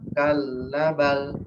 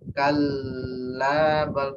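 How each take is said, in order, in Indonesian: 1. L-nya dobel tapi A-nya pendek. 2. L-nya ditahan terlalu lama. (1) "benar L-nya dua, tapi A-nya satu" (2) "L ada buahnya, lebih dari dua"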